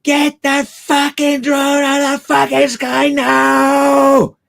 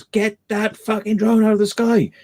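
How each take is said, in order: First: Very high, drawn-out mock scream, swelling on the last word; imitated furious shout. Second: High-pitched mock yell, held back in volume; imitated megaphone shout. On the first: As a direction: imitate an enraged megaphone yell, slowly, at full pitch. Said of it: "the complete inflection that was coming from one". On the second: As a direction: imitate an irate shouter on a megaphone, without full force. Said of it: "shouts got louder and then a megaphone".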